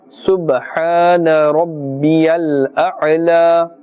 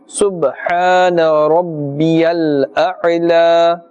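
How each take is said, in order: The two takes are said the same way.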